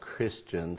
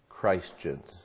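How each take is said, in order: First: The first syllable is short, without the word Christ. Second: The first syllable sounds like the word Christ. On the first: "why we are called Christians" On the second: "and not Christians. I wish it was pronounced that way"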